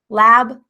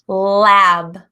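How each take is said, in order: First: The L sound is said in a natural way. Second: The L sound is strongly exaggerated and held. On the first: "sounding a little bit more natural, not exaggerating" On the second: "I'm going to be saying them exaggerated"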